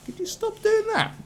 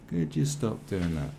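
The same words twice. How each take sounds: First: Mock falsetto plea. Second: Said in the usual way.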